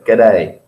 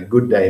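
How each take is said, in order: First: The two words are squeezed into one clipped word. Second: Both words are said fully and separately. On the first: "That's the Australian way to say it" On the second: "which sounds very British"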